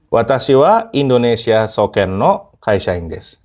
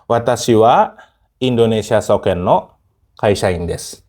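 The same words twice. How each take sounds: First: It is said at a normal pace. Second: It is said slowly, with stretched words and breaks.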